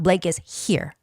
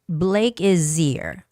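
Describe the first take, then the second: First: The h in 'here' is clearly pronounced. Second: The h in 'here' is dropped and linked. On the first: The speaker calls it wrong. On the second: The speaker calls it right. "that H consonant gets absorbed by the sound in front of it"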